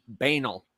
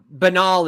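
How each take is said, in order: First: Banal stressed up front, "BAY-nul"; mispronounced banal. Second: Banal stressed on the second syllable, "buh-NAHL"; common pronunciation of banal. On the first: Retold or imitated. Retelling an embarrassing misreading, Banal as BAY-nul. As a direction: say Banal to rhyme with anal. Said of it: "I was like". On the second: Shown as a demonstration. Showing how most people say it, banal as buh-NAHL. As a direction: say banal with a long AH at the end. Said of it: "is how a lot of people pronounce it".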